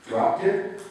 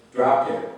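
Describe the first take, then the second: First: High, rising disbelieving question; shocked questioning echo; incredulous echo. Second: Said in the usual way. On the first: A narrator's reading. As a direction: repeat it back like you can't believe it.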